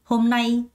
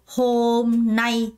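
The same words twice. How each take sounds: First: The second syllable is stressed, the first light. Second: Both syllables get equal stress. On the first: The speaker calls it right. "nay의 강세가 들어가요" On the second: The speaker calls it wrong. "아무도 hôm nay 이렇게 발음하는 사람 없어요"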